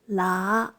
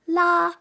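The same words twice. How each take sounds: First: The pitch rises from low toward mid. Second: The pitch stays high and level. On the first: "rising towards mid-tone" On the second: "tones one"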